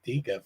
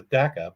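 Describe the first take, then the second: First: Deca said DEE-kuh; deca, first syllable like "dee"; deca with long ee. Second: Deca said DECK-uh; deca, first syllable like "deck"; deca with short e. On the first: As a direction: say deca with an "ee" sound. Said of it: "I still say deca". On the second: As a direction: say deca to rhyme with Mecca. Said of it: "it's really clearly". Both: Shown as a demonstration.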